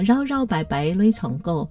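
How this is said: It is said in Hailu Hakka accent.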